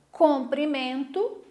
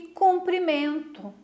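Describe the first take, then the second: First: "comprimento" slowly, with O in the first syllable; careful enunciation. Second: "cumprimento" slowly, with U in the first syllable; careful enunciation. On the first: Teacher showing students a paronym example, careful enunciation of "comprimento". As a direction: spell out the O of "comprimento" by voice. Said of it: "o modo de falar, é muito parecida". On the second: Teacher contrasting a similar-sounding word, careful enunciation of "cumprimento". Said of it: "mas que a pronúncia deles". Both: Shown as a demonstration.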